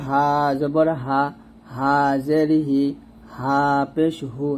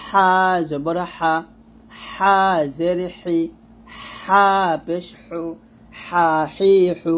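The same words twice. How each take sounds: First: Easy unstressed "হা", slow drill; normal ha. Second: "হা" pushed from the throat with pressure, slow; pressed ha. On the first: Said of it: "normal ভাবে আমরা উচ্চারণ করব". ("হা" normal ভাবে) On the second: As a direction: press hard on "হা হি হু". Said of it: "চাপ দিয়ে". ("হা" চাপ দিয়ে) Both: Shown as a demonstration.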